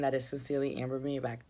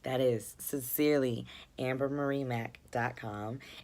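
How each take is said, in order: First: It is said fast. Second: It is said slowly.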